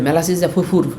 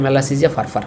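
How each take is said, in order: First: Furfur is said with an 'oo' vowel. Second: Furfur is said with an 'ar' vowel. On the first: The speaker calls it wrong. "যে এই নামটা আগে কখনো pronunciation করে নাই সে যে বলবে" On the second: The speaker calls it right. "ফুরফুর না, এটা মেলাসিজিয়া ফারফার"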